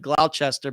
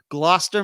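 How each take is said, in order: First: Every written syllable of the name is sounded. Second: The name is said in a shortened form. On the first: This is how the spelling looks. The speaker calls it wrong. "I know it looks like Gloucester" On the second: This is how the town's name is actually said. The speaker calls it right. "I think that's how you say it"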